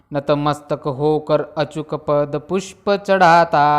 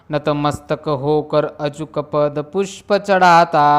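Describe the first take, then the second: The two takes are said the same way.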